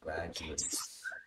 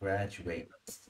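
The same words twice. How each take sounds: First: It is pronounced the way the noun sounds. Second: It is pronounced the way the verb sounds. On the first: The speaker calls it right. "It's graduates" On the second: The speaker calls it wrong. "When it's a noun, it's not graduates"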